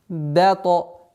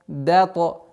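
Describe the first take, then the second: No difference in how they are said.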